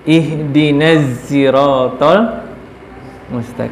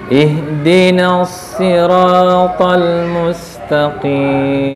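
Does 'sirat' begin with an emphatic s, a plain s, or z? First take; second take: z; emphatic s. First: Sirat begins with a z sound. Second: Sirat begins with an emphatic, heavy s. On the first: This is a regional dialect reading. "lebih enak pakai za" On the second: This is the majority reading. "dengan shad. Shad"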